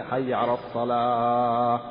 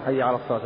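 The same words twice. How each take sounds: First: حي على الصلاة drawn out slowly with a long held الصلاة; stretched call. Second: Said in the usual way. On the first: Shown as a demonstration. Teacher mimicking a muezzin who stretches the second call, slow. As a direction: lengthen it like an overdone muezzin. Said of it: "ثم الثانية". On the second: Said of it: "يقصر".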